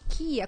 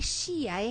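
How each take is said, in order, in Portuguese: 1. A palavra começa com som de k. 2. A palavra começa com som de sh. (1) "é kia" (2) "É chia, é kia, como que pronuncia?"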